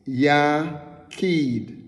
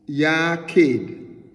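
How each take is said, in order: First: "Yakid" as YAH-keed, long ee, falling tune; Hebrew pronunciation. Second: "yakid" slowly, each sound clear; Hebrew pronunciation. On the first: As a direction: say "Yakid" slowly and clearly, stress on the first syllable. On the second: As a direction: say "yakid" as YAH-keed, stress on the first syllable. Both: Shown as a demonstration. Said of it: "So we pronounce it".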